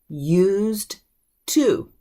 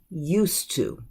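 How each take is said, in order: First: The two words are said separately, with a d. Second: The words blend into one, without a d. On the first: "it is written used to" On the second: "that D will slip into a T sound... the whole thing is going to sound like one word"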